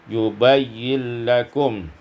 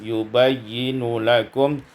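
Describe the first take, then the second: First: The n runs directly into lakum. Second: A vowel follows the n before lakum.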